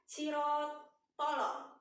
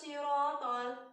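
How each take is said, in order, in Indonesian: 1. Kata itu berakhir dengan vokal tambahan yang memantul. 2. Kata itu berakhir jelas pada l yang ditahan.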